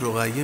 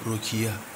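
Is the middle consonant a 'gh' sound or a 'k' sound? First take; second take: gh; k. First: It is said with a 'gh' middle consonant. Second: It is said with a 'k' middle consonant. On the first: This is the standard form of the name. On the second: This is the local dialect form of the name.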